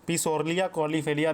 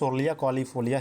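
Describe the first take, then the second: First: The name begins with a sounded P. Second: The name begins without any P sound. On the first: "पी सोरलिया कॉलीफेलिया भी याद कर सकते हो" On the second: "इसका पी साइलेंट है"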